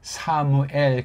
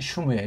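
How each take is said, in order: First: The name begins with the syllable 'sa'. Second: The name begins with the syllable 'shu'. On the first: The speaker calls it wrong. "한글은 사무엘 그렇게 번역했는데" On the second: The speaker calls it right. "슈예요 슈"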